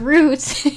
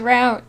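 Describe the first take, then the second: First: It is said the British way. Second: It is said the American way. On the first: "the British way is route" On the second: "the American way is route"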